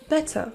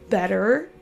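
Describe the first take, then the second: First: The ending is a schwa with no R. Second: The ending has a schwa followed by an R. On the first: "et ensuite l'accent britannique" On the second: "d'abord l'accent U S"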